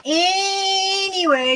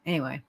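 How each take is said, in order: First: High, slow, sing-song anyway; drawn-out anyway. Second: Low, soft trailing anyway; muttered anyway. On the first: Streamer snapping back to chat, a high drawn-out sing-song. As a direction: stretch it out high to change the subject. Loudly switching topic. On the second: Streamer drifting off mid-search, a low soft mutter. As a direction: let it drop under your breath. Trailing off before changing topic. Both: Real, not acted.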